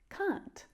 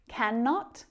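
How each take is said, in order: First: It is said as one short contracted syllable. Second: It is said as the full two-syllable form.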